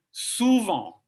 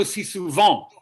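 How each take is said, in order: First: "souvent" said slowly, with no bump; natural spoken French. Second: "si souvent" with a bump banged on the beat; bumpy French. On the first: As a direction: let "souvent" flow evenly as in spoken French. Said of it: "they tend to say souvent". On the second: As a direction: hit "souvent" with a heavy bump. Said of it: "they don't go si souvent". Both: Shown as a demonstration.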